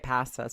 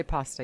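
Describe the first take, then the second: First: "pasta" with short flat A; "pasta" with the A of cat; other pronunciation. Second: "pasta" with open AH; "pasta" with the A of father; contrasted pronunciation. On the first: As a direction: say "pasta" as PASS-tuh. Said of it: "if you say it pasta". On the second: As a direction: say "pasta" as PAH-stuh. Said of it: "but you say pasta again". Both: Shown as a demonstration.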